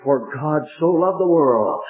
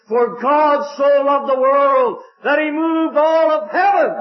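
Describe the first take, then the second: First: Said in the usual way. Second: High, slow, swelling with wonder; soaring preacher's cry. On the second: Acted. Preacher to his congregation, soaring high and slow. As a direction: lift the verse up to heaven, drawing it out. Preacher repeats the verse, rising fervently.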